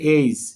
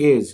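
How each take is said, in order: First: The vowel glides from e to i. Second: The vowel is a plain short e. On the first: The speaker calls it right. "উচ্চারণ হবে এইজ" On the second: The speaker calls it wrong. "আমরা বলি এজ"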